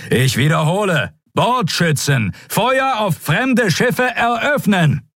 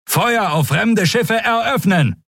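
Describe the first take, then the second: First: Higher, slow, insistent shout; repeated command. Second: High, slow commanding shout; shouted order. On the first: Admiral repeats his unanswered fire order, insistent shout. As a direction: repeat the order, harder now. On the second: Admiral orders the gunners to fire, shouting. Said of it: "rief er". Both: Acted.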